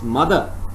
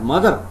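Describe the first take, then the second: First: The final r is dropped, ending in schwa. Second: The final r is pronounced. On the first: "it is mother" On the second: "instead of mother"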